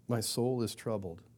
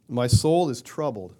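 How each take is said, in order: First: "My soul is troubled." repeated softly and reflectively; soft echo. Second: "My soul is troubled." read slowly and loudly, weight on "soul"; solemn reading. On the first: Preacher echoing the verse to his congregation, quiet and reflective. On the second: Preacher reading Jesus' words from John, slow solemn emphasis. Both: Shown as a demonstration.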